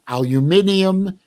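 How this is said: The word is said with the ending -inium. This is the form used in another country.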